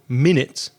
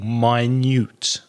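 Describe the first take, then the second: First: The stress is on the first syllable. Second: The stress is on the second syllable. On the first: It means sixty seconds. "The stress is on the first syllable" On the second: It means very small. "it falls on the second syllable"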